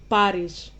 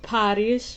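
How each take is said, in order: First: The first consonant is crisp without breath. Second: The first consonant has a breathy puff. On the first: The speaker calls it right. "You make it less uh, breathy" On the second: The speaker calls it wrong. "not Paris"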